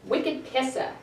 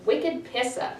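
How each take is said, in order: First: "Wicked pissa" with no r, pissah; Boston accent. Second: "Wicked Pissa" again, r dropped, even fall; Boston accent. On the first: Teacher modelling Boston slang for the class. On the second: Teacher repeating the Boston phrase for students. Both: Shown as a demonstration.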